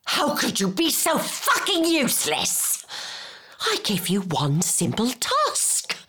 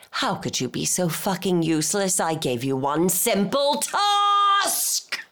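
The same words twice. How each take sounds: First: High-pitched outburst on the insult, then settling; exasperated scolding. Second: Exasperated scolding. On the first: Berating someone useless at one simple task, high and exasperated. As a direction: start high and outraged, then come down. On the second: Berating someone useless at one simple task, building exasperation. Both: Acted.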